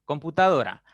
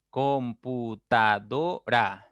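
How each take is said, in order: First: Said in the usual way. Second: "Computadora" slowly as com - pu - ta - do - ra; syllable by syllable. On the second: Shown as a demonstration. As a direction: break "Computadora" into five slow beats, com, pu, ta, do, ra. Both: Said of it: "Tiene cinco sílabas también".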